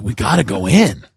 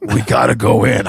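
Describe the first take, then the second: First: Said in the usual way. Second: Lightly voiced buddy impression; Brian. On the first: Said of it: "I'm like". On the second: Friend outside his house, light imitation. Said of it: "He goes".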